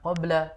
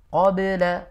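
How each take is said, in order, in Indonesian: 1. Bunyi b dilepas dengan lemah, hampir tidak memantul. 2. Bunyi b dilepas dengan pantulan yang jelas. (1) "Bukan qabla" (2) "tapi qabla"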